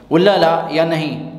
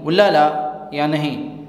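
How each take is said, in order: First: Said in the usual way. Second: Slower, careful repeat; slow model phrase. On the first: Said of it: "teacher repeats the phrase". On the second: Shown as a demonstration. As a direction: say it slowly for the learner. (آہستہ دہرایا گیا جملہ)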